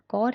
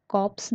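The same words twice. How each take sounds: First: Corps with silent p and s; corps, ending left unsounded; correct 'core' for corps. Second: Corps with p and s sounded; wrong 'corpse' for corps. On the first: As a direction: say corps as core. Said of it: "इसकी pronunciation कॉर है". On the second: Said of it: "exact कॉप्स नहीं है". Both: Shown as a demonstration.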